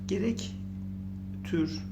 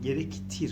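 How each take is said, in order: First: The last syllable has a rounded ü vowel. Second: The last syllable has a front i vowel. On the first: The speaker calls it wrong. "Gerek tür olmaz" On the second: The speaker calls it right. "gerek tir olur"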